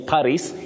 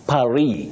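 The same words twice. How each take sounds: First: It is pronounced in the English way. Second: It is pronounced in a non-English way.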